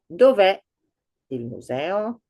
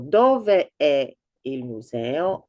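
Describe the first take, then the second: First: The final e of dove is dropped. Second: Dove and è are said as separate words. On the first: "we would drop the e of dove and, re- and read dov'è" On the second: "I wrote the whole, the complete, um, complete words, dove è, separately"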